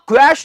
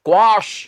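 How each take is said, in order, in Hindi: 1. स्वर 'cash' वाले जैसा है। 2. स्वर 'wash' वाले जैसा है। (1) "क्वैश नहीं" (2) "इसका उच्चारण है क्वाश"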